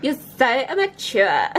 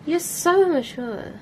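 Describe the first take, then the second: First: Slow mock replay of "You're so immature"; imitating own line. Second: Drawn-out mocking "You're so immature"; teasing immature jab. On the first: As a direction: repeat "You're so immature" in a hammed-up, sneering way. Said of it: "That sounded immature". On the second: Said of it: "That sounded s-, that sounded so".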